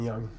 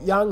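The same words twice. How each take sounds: First: The word is said on a low tone. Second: The word is said on a high tone. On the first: It means light, the opposite of heavy. "Low tone young" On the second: It means a cliff. "young high tone means a cliff"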